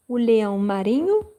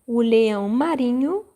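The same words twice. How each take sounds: The two takes are said the same way.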